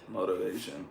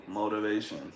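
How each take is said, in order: First: The middle T is said like a soft D. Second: The same.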